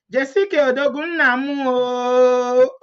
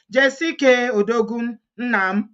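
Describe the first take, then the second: First: Raised Igbo tune, final "oh" held long and level; Igbo intonation. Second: Said in the usual way. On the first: Shown as a demonstration. Vlogger shows followers how the comment goes, Igbo intonation. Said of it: "Igbo intonation".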